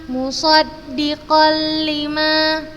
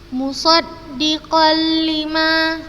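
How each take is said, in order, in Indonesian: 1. Bunyi n melebur sepenuhnya ke l setelahnya. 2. Bunyi n melebur sepenuhnya ke l setelahnya.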